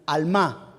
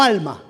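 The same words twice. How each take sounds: First: Alma stressed on the last a, al-MÁ, like almá; stress on final A. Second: Alma stressed on the first a, AL-ma; wrong stress. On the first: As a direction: put the accent on the final A of alma, al-MÁ. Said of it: "tilde en la última A". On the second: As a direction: alma said as AL-ma, not almá. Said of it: "No alma". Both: Shown as a demonstration.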